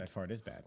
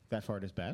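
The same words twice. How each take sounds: First: It is said as a statement, falling. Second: It is said as a question, rising.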